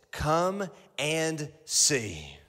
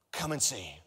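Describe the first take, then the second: First: Very slow, drawn out "Come and see."; slow title. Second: Soft repeat. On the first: Preacher giving the sermon title, slow and deliberate. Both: Shown as a demonstration. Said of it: "this is the title of your sermon".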